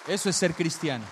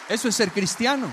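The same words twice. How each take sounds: First: Firm repeat. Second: Loud, raised proclamation; emphatic preaching. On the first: Preacher repeats the lesson to congregation, firm loud statement. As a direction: land it firmly, voice still loud. Repeats the point, lower pitched. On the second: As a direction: drive the point home at full volume. Preacher drives home his point. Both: Real, not acted.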